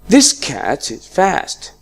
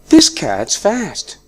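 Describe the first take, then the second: First: The verb is said fully and clearly. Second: The verb is reduced to an 's' sound. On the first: "in the strong form, I say" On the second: "I used is in a weak form and it was pronounced like s"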